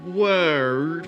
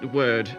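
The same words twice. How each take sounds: First: The word is said with an R sound. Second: The word is said without an R sound. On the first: This is how it used to be pronounced. "with an R sound in there" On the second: This is how the speaker's accent says it today. "in my accent of English"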